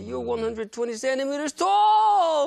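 It is said in an amazed, excited tone.

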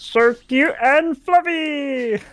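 It is said in a put-on cartoon character voice. The speaker calls it right. "I should do that with the voice"

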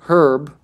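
It is said the British way. "The UK says herb"

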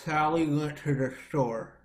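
The voice sounds open and relaxed with a dropped jaw. The speaker calls it right. "If I open up my teeth, drop my jaw and the corners of my lips down"

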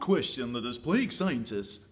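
It is said in a put-on documentary narrator voice.

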